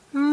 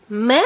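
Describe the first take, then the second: First: "Ma" with both sounds held; read slowly. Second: Short, brisk "Ma"; read quickly. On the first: Teacher reading with a child, drawn out. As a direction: stretch "Ma" out slowly. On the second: Teacher reading with a child, quickly. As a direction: cut "Ma" to a brief syllable. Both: Shown as a demonstration. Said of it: "Let's read them quickly".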